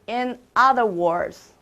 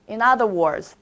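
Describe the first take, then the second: First: The phrase is said slowly, word by word. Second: The phrase is said quickly, words run together.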